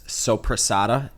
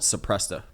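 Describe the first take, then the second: First: The word is said with four syllables. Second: The word is said with three syllables. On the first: The speaker calls it right. "I just recently found out it's sopressata" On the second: The speaker calls it wrong. "I always called it suppressa"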